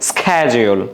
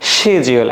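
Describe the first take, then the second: First: It is said in an American accent. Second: It is said in a British accent. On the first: "আমেরিকানরা কি বলে?" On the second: "ব্রিটিশে কি বলে?"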